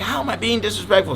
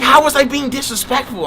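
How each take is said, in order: First: Mildly mimicked indignation. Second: High-pitched imitation of an offended girl; mimicked indignation. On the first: Quoting her as soon as he tells her, mildly indignant. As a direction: lightly imitate an offended girl. Mimics the girl's question again, milder. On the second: Quoting the girl's comeback when told off, mock indignant. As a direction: act out her protest, pitched way up.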